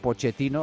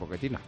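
First: The middle consonant is a 'ch' sound. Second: The middle consonant is a 'k' sound. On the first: The speaker calls it wrong. "después de estar toda la noche diciendo Pochettino" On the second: The speaker calls it right. "ahora tienes que decir Pochettino"

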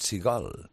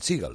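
First: The stress is on the second syllable. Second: The stress is on the first syllable. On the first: The speaker calls it right. "es Steven Seagal" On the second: The speaker calls it wrong. "no es Steven Seagal"

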